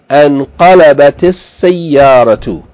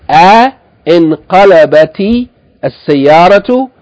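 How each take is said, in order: First: The initial 'a' runs straight into 'n'. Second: A separate 'i' vowel follows the initial 'a'. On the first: The speaker calls it right. "we say anqalabati as-sayyaratu" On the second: The speaker calls it wrong. "instead of saying a inqalabati as-sayyaratu"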